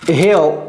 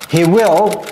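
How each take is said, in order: First: It is said as one contracted syllable. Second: It is said as two full separate words. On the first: "c'est he'll"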